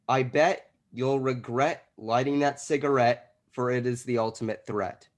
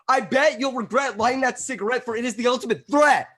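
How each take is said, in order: First: It is said in a neutral way. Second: It is said aggressively, like yelling at someone.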